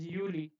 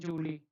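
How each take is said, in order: First: The word begins with a Y sound. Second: The word begins with a J sound. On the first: The speaker calls it right. "This is Yuli" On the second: The speaker calls it wrong. "Don't read it as Julie"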